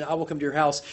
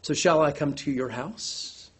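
First: Said in the usual way. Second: Slow and softer, "shall" lifted into a question; questioning stress on shall. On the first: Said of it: "just a blank declaration". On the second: Shown as a demonstration. Preacher turning the statement into a question. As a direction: ask it, leaning on "shall". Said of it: "It leans into a question".

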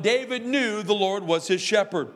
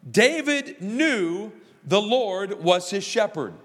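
First: Said in the usual way. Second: Slow, weighty preaching line; slow emphatic statement. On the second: Acted. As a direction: lay each word down slowly. First statement of point one.

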